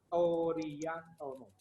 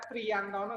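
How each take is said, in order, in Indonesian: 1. Vokal tambahan memecah gugus tr di awal. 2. Nama itu diawali dengan gugus tr yang rapat. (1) "ke orang Jepang namanya jadinya Toriantono" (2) "nama saya Triantono"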